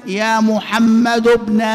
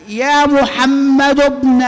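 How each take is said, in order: First: يا محمد ابن slow, ابن said as ubn; alternative pronunciation. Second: يا محمد ابن slow and louder, ابن said as ebn; demo pronunciation. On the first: Teacher showing the second way to say يا محمد ابن, slow. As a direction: give ابن a u sound after محمد. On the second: Teacher modelling يا محمد ابن for students, slow and louder. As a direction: stretch يا محمد ابن, ابن with an e sound. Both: Shown as a demonstration. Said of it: "المنادى الموصوف بابن".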